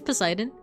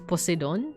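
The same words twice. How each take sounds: First: The name is pronounced the usual English way. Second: The name is pronounced the Greek way.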